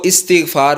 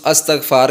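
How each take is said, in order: First: استغفار said with an opening "i", as "istighfaar"; correct pronunciation. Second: استغفار said with an opening "a", as "astaghfar"; common mispronunciation. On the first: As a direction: say استغفار carefully as "is-tigh-faar". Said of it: "اس کا یہ درست تلفظ ہے". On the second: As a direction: say استغفار wrongly as "as-tagh-faar". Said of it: "جو کہ غلط تلفظ ہے". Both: Shown as a demonstration.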